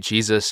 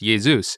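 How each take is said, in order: First: The name has an English pronunciation. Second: The name has a Greek pronunciation. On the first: "we say Jesus in English. That's the common pronunciation" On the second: "in the original Greek language ... it's more Jesus is generally how it's pronounced"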